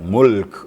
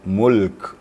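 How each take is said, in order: First: It is said too fast, the l barely heard. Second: Both the l and k sounds are clearly heard. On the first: The speaker calls it wrong. "Terlalu cepat mulk gitu" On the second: The speaker calls it right. "dengar lamnya dan dengar kafnya"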